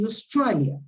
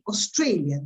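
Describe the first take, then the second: First: The stressed vowel sounds like 'eye'. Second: The stressed vowel sounds like 'ay'. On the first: "they say Australia. A becomes I" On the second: "the Australian people don't say Australia"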